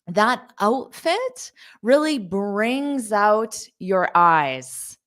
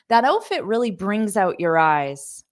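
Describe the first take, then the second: First: The sentence is spoken at a slow pace. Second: The sentence is spoken at a fast pace. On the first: "because I said it slowly" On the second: "So I'll say it fast"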